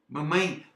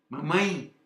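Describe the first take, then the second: The two takes are said the same way.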